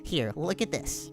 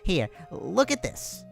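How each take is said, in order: First: The voice sounds like Alphys. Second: The voice sounds like Papyrus.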